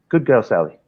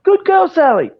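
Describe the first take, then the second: First: It is said in a calm, low-key voice. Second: It is said in an excited, high-energy voice.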